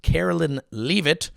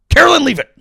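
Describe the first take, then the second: First: Said in the usual way. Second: Loud, high dog command; yelling at a dog. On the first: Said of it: "It sounds like you're just yelling at a dog". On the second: Acted. Comic scolding press secretary like a dog, yelling. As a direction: shout it as one sharp order to a dog. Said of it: "you're just yelling at a dog".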